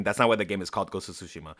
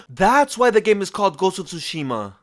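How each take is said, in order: First: Much lower and softer, stressing not; flat take-back, hit not and drop the voice; deadpan correction. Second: Gasp, then lean hard on why as if it explains everything; mock big reveal. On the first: Shown as a demonstration. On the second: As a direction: fake revelation, a touch higher, pressing why. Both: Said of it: "I'm just kidding".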